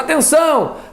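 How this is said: It is called out emphatically to get attention.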